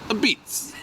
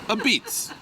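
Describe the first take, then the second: No difference in how they are said.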